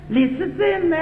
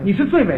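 First: It is said in Cantonese-accented Mandarin. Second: It is said in standard Mandarin.

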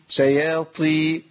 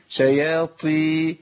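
No difference in how they are said.

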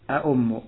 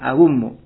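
First: The second consonant is a glottal stop. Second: The second consonant is a w sound. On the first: "kau tetapkan hamzahnya" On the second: "kau ganti hamzahnya menjadi wawu"

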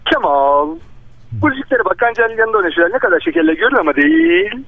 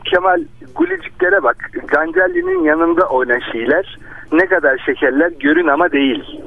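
First: The sentence is spoken at a normal, quick pace. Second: The sentence is spoken slowly and deliberately.

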